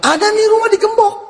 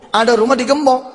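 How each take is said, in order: First: High-pitched sudden exclamation; acted eureka cry; exclaimed discovery. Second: Said in the usual way. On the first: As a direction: call it out high, as if just spotting it. Acting out spotting a padlocked house.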